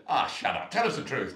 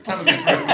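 First: Louder, laughing scoff; laughing disbelief. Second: Much higher and louder, shrieked; shrieking disbelief. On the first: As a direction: laugh him off as a liar. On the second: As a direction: squeal it at him in mock outrage. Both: Retold or imitated. Ladies mock his claim.

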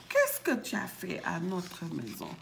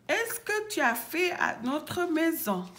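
First: Said in the usual way. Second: High-pitched questioning; high little voice. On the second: Acted. Bébé ours questions the intruder, high voice. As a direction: ask it high, like a small bear.

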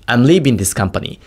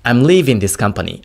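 First: Slow sentence, "leaving" said as "leebing"; B version. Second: Slow sentence, "leaving" with a buzzing V; V version. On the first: Teacher comparing without the device, "leaving" as "leebing". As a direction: close the lips for a B in "leaving". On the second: Teacher comparing without the device, "leaving" with a clear V. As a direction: keep a true V in "leaving". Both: Shown as a demonstration. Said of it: "これをもしなしでやった場合".

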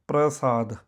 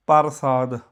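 First: ਪ੍ਰਸਾਦ as "pra-saad", r before the vowel; joined pr cluster. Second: ਪਰਸਾਦ as "par-saad", vowel before r; full r. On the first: Teacher spells it P R A, "pra-saad". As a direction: run p straight into r in ਪ੍ਰਸਾਦ. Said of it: "ਇਹ ਬਣਦਾ ਹੈ ਪ੍ਰ". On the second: Teacher spells it P A R, "par-saad". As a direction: sound p, a, then r in ਪਰਸਾਦ. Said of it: "ਇਹ ਬਣਦਾ ਹੈ ਪੀ ਏ ਆਰ". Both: Shown as a demonstration.

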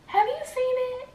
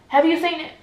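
First: Very high, squeaky inner voice; held-back pleading question. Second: Louder, raised-pitch irritated question; irritated demand. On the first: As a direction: ask it in a tiny high voice, aching to know. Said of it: "I just wanna ask him so bad". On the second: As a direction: finally burst out with the question, annoyed. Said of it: "I just get irritated, and I'm like". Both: Retold or imitated.

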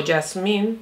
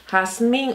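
First: "jazmín" starting with a y sound, like yasmín. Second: "jazmín" with a harsh throaty j, like hasmín; Spanish jota. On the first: Vlogger offers the other way to say the shade name "jazmín". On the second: Vlogger offers the first way to say the shade name "jazmín". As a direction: say "jazmín" starting with a rasped h sound. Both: Shown as a demonstration. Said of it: "como usted quiera decirlo".

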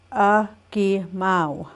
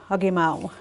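First: "Agimao" stretched very slowly, syllable by syllable; slow drawn out. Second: Said in the usual way. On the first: Shown as a demonstration. Teacher models the number slowly for learners. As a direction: draw the word out for the class.

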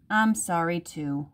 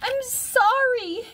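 First: Calmed-down mother. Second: Put-on very high, drawn-out child's cry; crying out in apology. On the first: Mother hugging Harriet after yelling, calm apology. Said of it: "Her mother took a deep breath". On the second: Harriet to her yelling mother, high childlike cry. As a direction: plead in a tiny high voice, stretched out. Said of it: "Harriet cried". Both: A narrator's reading.

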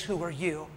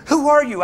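First: Low, soft, searching; quiet pointed question. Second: Sharp, higher, louder startled question; jolted, she fires back who he is; startled demand. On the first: The pastor gently presses the woman about who she is. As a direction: lean in and turn the question back on her. Preacher turns her question back. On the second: The woman, shaken in his truck, asks sharply. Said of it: "She's pulling". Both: Retold or imitated.

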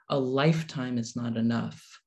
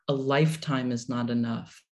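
No difference in how they are said.

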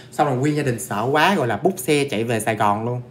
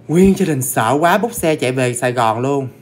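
First: Said in the usual way. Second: "Nguyên gia đình sợ quá" louder and drawn out; emphatic repeat. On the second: Retold or imitated. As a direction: stretch "Nguyên gia đình sợ quá" slowly, hitting it hard.

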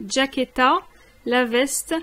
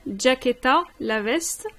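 Both takes have the same delivery.

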